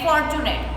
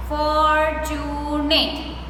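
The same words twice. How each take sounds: First: Said in the usual way. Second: "fortunate" very slow as for-tu-nate; broken into syllables. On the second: Shown as a demonstration. Teacher telling pupils how to practice, "fortunate" slowly broken up. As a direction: draw out each syllable of "fortunate". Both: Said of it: "Try to break the word like that".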